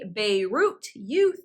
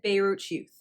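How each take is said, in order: First: The t and y are said separately. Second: The t and y merge into ch. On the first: The speaker calls it wrong. "I did not say Beirut youth" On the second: The speaker calls it right. "I said Beirut youth ... it became Beirut youth in connected speech"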